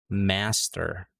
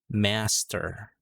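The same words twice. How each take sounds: Both takes have the same delivery.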